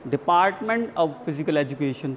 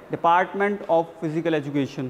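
First: "of" said quickly as "uv", with a v sound. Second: "of" said fully as "off", with an f sound. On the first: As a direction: run a short "uv" on after "Department". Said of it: "अव को जल्दी pronounce किया जा रहा है". ("of" को जल्दी से "अव" बोलें) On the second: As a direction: say "Department of" as "Department off". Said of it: "ये एक तरीका हो गया बोलने का". ("of" को पूरा "ऑफ" बोलें) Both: Shown as a demonstration.

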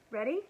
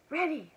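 First: "Ready?" asked lightly with a rising tune; whispered question. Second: "Ready!" pitched high with a falling tune; whispered answer. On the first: Elmer asks the waiting dragons, questioning. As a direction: lift the end of "Ready?" as a question. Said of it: "whispered Elmer". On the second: Fifteen waiting dragons reply to Elmer, eager confirmation. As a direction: answer "Ready!" high, dropping firmly at the end. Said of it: "whispered the fifteen waiting dragons". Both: A narrator's reading.

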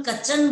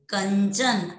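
First: कचन with the "n" before च dropped; mispronounced without nasal. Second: कंचन with a full "n" before च; correct anusvara. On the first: Teacher shows class the mistake, कचन minus its nasal. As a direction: say कचन as "ka-chan", no first nasal. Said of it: "इसको अगर अपन कचन बोल देते हैं". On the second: Teacher models correct word, कंचन with its "n" sounded. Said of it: "जैसा हम बोलेंगे वैसा ही हम लिखेंगे". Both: Shown as a demonstration.

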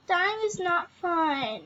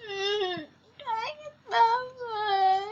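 First: Said in the usual way. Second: High, slow, tearful whine; mock whimper. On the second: Player about to die in the game, mock whimpering.

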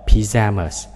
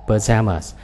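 First: PYJAMAS with a clear "pi" first syllable; British pronunciation. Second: PAJAMAS with a reduced "puh" first syllable; American pronunciation. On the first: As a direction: say "pyjamas" as pi-JA-mas, British style. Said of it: "tiếng Anh Anh là". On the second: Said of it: "Anh Mỹ sắp trước". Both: Shown as a demonstration.

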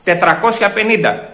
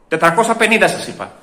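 First: "Τετρακόσια πενήντα" drawn out slowly, word by word; insistent repetition. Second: Said in the usual way. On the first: Acted. Customer correcting the weight, "Τετρακόσια πενήντα" slow and emphatic.

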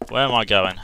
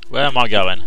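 First: Said in the usual way. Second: Startled, calling out lost; louder confused call. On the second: Real, not acted. Player lost in the big room, calling out loud. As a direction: say it loud and rattled.

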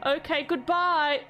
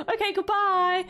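First: Slow, mock-tearful farewell; mock sad goodbye. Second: Higher, brighter quick farewell; chirpy goodbye. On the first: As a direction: drag the goodbye out as if sorry to leave. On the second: Acted. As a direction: toss off a cheery bye. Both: Saying farewell to a game character.

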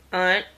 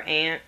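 First: "aunt" with an open "ah" vowel, like "ahnt". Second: "aunt" with a short front "a", like the insect ant. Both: Shown as a demonstration. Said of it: "or aunt".

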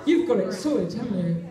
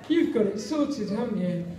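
The two takes are said the same way.

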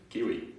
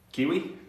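First: Said in the usual way. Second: "Kiwi?" asked with a sharp high rising tune; questioning rise. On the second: Shown as a demonstration. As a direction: say "Kiwi?" as a puzzled question, pitch lifting high on the last syllable.

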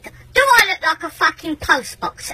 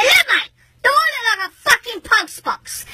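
First: Slow, higher rhetorical question; indignant challenge. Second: High, heated interruption; insistent outrage. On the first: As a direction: spell out the question in exasperation. Angry rhetorical question to neighbour. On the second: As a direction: cut in and press the question harder. Cuts in, repeats the question. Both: Retold or imitated.

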